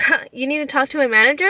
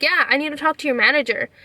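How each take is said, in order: First: Quick, doubting echo of a demand; imitating a sceptical clerk; mock incredulous question. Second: Mildly firm, matter-of-fact confirmation; understated insistent reply; retold insistence. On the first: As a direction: throw it back as a disbelieving question. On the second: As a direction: confirm the demand without doubting it. Retold firm answer to clerk.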